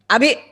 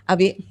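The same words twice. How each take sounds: First: The name is called angrily and loudly. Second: The name is called sweetly and softly.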